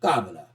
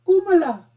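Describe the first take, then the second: First: Kamala dropped very low, first vowel open ah. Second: Kumala in a high, loud mock Indian accent; poor Indian accent. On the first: Host mocking how the candidate says it, low KAH-ma-la pronunciation of Kamala. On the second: Host contrasting the name for viewers, high mock Indian accent on Kumala. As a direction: say Kumala starting KOO, in a badly faked Indian accent. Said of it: "That's a poor Indian accent". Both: Shown as a demonstration.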